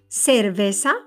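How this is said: The c sounds like an s. "la pronunciación de la C y la S es igual"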